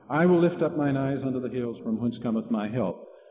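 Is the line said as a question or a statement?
statement. It is said as one flowing statement.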